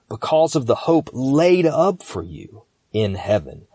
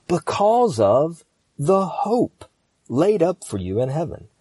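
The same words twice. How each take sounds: First: "laid up" lifted and leaned on; stress on laid up. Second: "hope" high, slow and set apart; slow right down to land on "hope"; stress on hope. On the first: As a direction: move through "hope" to press on "laid up". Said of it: "I'm gonna emphasize different words". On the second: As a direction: stretch "because of the hope", pause after "hope". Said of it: "I'm gonna do it again". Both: Shown as a demonstration.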